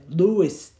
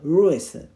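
First: The name begins with a firm English L sound. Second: The name begins with an English R sound. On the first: "ルイスって言ってて" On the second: "R だとルイス"

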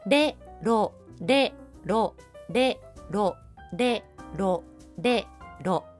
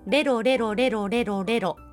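First: The syllables are repeated at a slow pace. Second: The syllables are repeated at a fast pace. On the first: "まずはゆっくりこのペースで" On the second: "この速さで"

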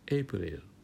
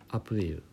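First: The word begins with an 'ay' sound. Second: The word begins with an 'ah' sound. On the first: The speaker calls it wrong. "うっかりエイプリルで言ってしまったり" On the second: The speaker calls it right. "素直な人はアプリル"

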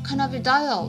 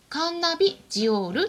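First: It is said with an English pronunciation. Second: It is said with a Japanese pronunciation. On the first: "英語だとカナビダイオっていうんですね" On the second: "日本語の名前でカンナビジオールっていうんですね"

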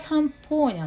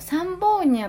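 First: The middle consonant is a voiceless p sound. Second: The middle consonant is a voiced b sound. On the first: This is the actual name. The speaker calls it right. "本当はサンポーニャなんだよね" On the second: This is how the name was said at the event. The speaker calls it wrong. "サンボーニャって言ってたけど"

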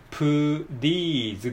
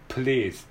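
First: The second syllable sounds like 'ree'. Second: The second syllable sounds like 'reh'. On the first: The speaker calls it wrong. "プリーズではなくて" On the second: The speaker calls it right. "プレーズですからね"

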